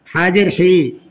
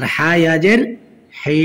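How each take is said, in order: First: Final হি with a short, quick vowel. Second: Final হি with a long held vowel; one-alif stretch. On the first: Teacher showing learners the quick reading, short final হি. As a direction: cut the last হি short. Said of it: "তাড়াতাড়ি হবে". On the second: Teacher showing learners the stretch, long final হি. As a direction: draw out the last হি. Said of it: "এক আলিফ টান হবে". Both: Shown as a demonstration.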